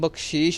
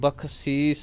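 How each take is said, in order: First: The word ends with an sh sound. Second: The word ends with an s sound. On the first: The speaker calls it wrong. "इहनूं बख्शीश नहीं कहना गा" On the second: The speaker calls it right. "एक बख्शीस"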